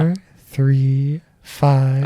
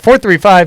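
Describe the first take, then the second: First: It is said slowly. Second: It is said fast.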